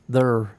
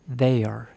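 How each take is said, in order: First: The word is squeezed into one syllable. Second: The word is stretched to nearly two syllables. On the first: "being from Indiana, I grew up hearing it pronounced there" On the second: "It's almost two syllables"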